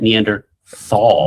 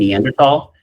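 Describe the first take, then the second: First: The last syllable is said with a th sound. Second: The last syllable is said with a plain t. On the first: "because T H A L is thal" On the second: "you mean Neanderthal?"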